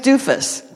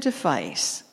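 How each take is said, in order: First: The name sounds like 'doofus'. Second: The name sounds like 'device'. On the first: The speaker calls it right. "that's not my name. My name's Doofus" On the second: The speaker calls it wrong. "How would you pronounce that?"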